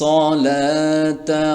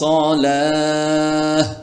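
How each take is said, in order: First: The word ends with a t sound and vowel. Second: The word ends with an h sound. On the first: The reading continues without a stop. "এক শ্বাসে পড়তে চাই তাহলে এভাবে পড়তে পারি" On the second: The reader stops at this word. "এই তাটা হয়ে যাবে হা"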